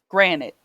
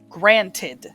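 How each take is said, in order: First: The word ends like 'nit', without the 'ed'. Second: The word ends with a clear 'ted' syllable. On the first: The speaker calls it wrong. "due to my accent, I say granite" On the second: The speaker calls it right. "I was supposed to say granted"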